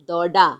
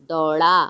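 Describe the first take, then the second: No difference in how they are said.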